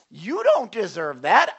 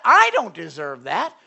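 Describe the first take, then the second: First: "don't" pressed hard with a rising tune; stress on don't. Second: "I" struck first and loud, rising at the end; stress on I. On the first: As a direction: lean on "don't" in "You don't deserve that". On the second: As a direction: put the weight on "I" in "I don't deserve that". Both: Shown as a demonstration.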